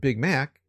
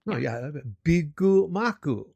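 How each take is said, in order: First: It is said with plain English pronunciation. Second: It is said with added vowels, Japanese-style. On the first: The speaker calls it wrong. "you can't go to McDonald's and ask for a Big Mac" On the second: The speaker calls it right. "you have to say it that way"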